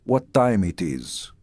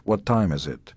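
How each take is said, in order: First: Put-on slow, careful "What time it is?" in a thick foreign accent; heavy immigrant accent. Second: Said in the usual way. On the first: A new immigrant boy asking the time, thick foreign accent. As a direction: mimic his young self's broken English, unhurried. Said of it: "I still sounded like Latka". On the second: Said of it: "instead of".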